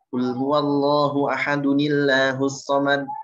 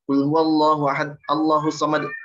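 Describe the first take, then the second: First: Ahad ends in a vowel linked into the next word. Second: Ahad ends with no vowel before the next word. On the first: The speaker calls it right. "huruf terakhirnya tuh mesti dibaca" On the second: The speaker calls it wrong. "Enggak gitu"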